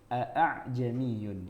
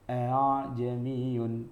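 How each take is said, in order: First: The glottal stop is said firmly with strong breath. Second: The glottal stop is softened, almost like an h. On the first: "bacanya dengan syiddah, dengan kuat" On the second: "hamzahnya itu tidak syiddah tapi lunak"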